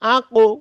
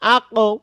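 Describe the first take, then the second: First: The final echo is rounded, like an o. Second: The same.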